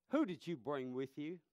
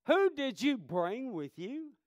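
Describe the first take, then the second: First: Said in the usual way. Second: "Who did you bring with you?" asked again higher, louder and slowly, leaning on "who"; Jesus demanding an answer, louder and higher; pressing repeat. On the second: Acted. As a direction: press the question home, high and slow. Question repeated with force.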